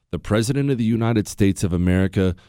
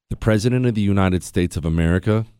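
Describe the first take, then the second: No difference in how they are said.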